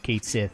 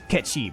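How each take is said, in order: First: The name ends with a soft 'th' sound. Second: The name ends with a 'chee' sound. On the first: The speaker calls it wrong. "they decided to use Kate Sith as the pronunciation in Rebirth. That's wrong!" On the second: The speaker calls it right. "it's Ketchi, by the way"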